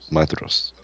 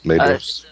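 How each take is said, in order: First: The middle consonant is a th sound. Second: The middle consonant is a plain d sound. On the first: The speaker calls it right. "D-H is a Maedhros. T-H" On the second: The speaker calls it wrong. "I don't think I said that right"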